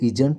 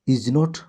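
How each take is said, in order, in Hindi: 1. यह एक छोटे, संकुचित शब्द की तरह बोला जाता है। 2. यह दो पूरे अलग शब्दों की तरह बोला जाता है। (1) "short form इजंट" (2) "long form इज नॉट"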